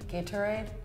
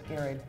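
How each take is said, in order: First: Each part of the word is pronounced clearly. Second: The parts of the word are mushed together. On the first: This is the standard form. "it's supposed to be" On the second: This is how people casually say it. "we kind of mush the words together"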